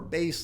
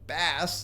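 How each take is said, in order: First: It is pronounced as the word for the instrument. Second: It is pronounced as the word for the fish. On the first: The word names a musical instrument. "like the musical instrument" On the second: The word names a fish. "like the fish"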